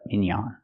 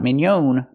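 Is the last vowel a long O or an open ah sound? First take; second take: open ah; long O. First: The last vowel is an open ah. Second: The last vowel is a long O. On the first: The speaker calls it right. "We use a more open sound" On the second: The speaker calls it wrong. "We don't use the long O for the last vowel"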